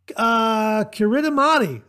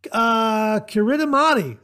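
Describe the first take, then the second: First: Every letter is sounded, giving five syllables. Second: The same.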